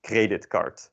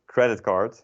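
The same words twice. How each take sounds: First: Creditcard read out with Dutch sounds, as it is spelt; Dutch spelling pronunciation. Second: Credit card said the English way, as Dutch speakers do; English pronunciation. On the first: Teacher demonstrating the wrong Dutch reading of creditcard. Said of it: "If you were to pronounce it in the Dutch way". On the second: Teacher showing how Dutch speakers say credit card, English style. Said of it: "that's how you pronounce it in Dutch as well". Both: Shown as a demonstration.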